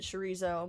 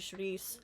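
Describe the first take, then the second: First: It is said the way English speakers say it. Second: It is said the way Portuguese speakers say it. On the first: The speaker calls it wrong. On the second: The speaker calls it right. "but it's actually chouriço"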